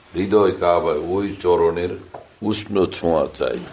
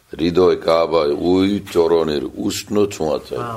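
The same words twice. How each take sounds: The two takes are said the same way.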